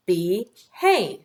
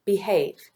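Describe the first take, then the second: First: BE and HAVE said apart, a pause between; split into syllables. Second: Said in the usual way. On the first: Shown as a demonstration. Teacher tapping out syllables for pupils, split into syllables. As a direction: break Behave into "be", pause, "have". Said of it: "Let's tap the syllables". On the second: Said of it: "Say the word behave".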